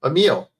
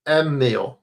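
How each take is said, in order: First: Emil said quickly as uh-MEEL; corrected name. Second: Emil said with a long held m, EM-mil; fumbled name. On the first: Streamer settling on the name Emil, quick and light. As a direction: clip it short, uh-MEEL for Emil. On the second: Streamer trying out the name Emil, stretched m. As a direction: drag out the m in Emil. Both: Shown as a demonstration. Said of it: "I can't pronounce words".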